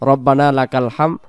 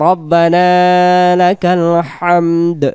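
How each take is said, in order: First: The last word ends without a d sound. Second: The last word ends with a d sound. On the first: The speaker calls it wrong. "হাম হাম পড়লে এখানে দাল অক্ষরটা বাদ চলে যায়।" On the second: The speaker calls it right. "তাহলে এখানে আমরা উচ্চারণ করব"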